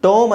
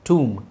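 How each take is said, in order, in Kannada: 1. ಸ್ವರ ದೀರ್ಘವಾದ 'oh' ಶಬ್ದ. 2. ಸ್ವರ ದೀರ್ಘವಾದ 'oo' ಶಬ್ದ. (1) "ಟೂ ಟೋಮ್ ಅಂತ ಹೇಳೋಂಗಿಲ್ಲ" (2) "ಟೂಮ್ ಅಂತಲೇ ಹೇಳಬೇಕು"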